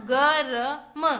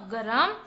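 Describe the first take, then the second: First: गरम stretched slowly as ग-र-म; syllable by syllable. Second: Said in the usual way. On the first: Shown as a demonstration. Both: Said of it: "इधर से हम पढ़ेंगे तो क्या बना?".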